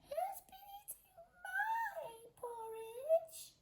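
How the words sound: It is said in a tiny squeaky voice.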